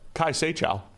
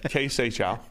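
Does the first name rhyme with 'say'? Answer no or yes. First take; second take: no; yes. First: The first name does not rhyme with 'say'. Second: The first name rhymes with 'say'. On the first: The speaker calls it wrong. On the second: The speaker calls it right.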